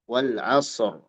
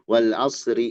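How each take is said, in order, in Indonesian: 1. Berhenti pada r akhir yang berat, tanpa vokal. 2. R diberi i lalu langsung disambung. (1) "ar harus nampak tebal" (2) "Saya mau disambung aja"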